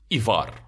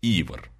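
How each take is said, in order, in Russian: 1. Ударение на втором слоге. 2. Ударение на первом слоге. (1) "Может, как командир Дирк" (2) "Ударение на «и», кстати"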